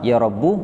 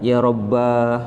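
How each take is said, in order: First: The word ends in a short u vowel. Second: The word ends in a long a vowel. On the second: "atau dipanjangkan"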